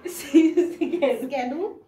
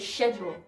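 First: The word begins with an sk sound. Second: The word begins with an sh sound. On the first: "So we kind of act like there is no H" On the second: "But in British they say schedule"

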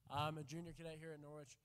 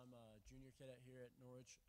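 First: It is said loudly. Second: It is said quietly.

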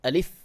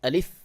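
No difference in how they are said.

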